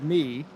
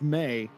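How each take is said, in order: First: The name is said with an 'ee' vowel. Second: The name is said with an 'ay' vowel. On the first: The speaker calls it wrong. "I pronounce it me" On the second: The speaker calls it right. "it is uh, very much May"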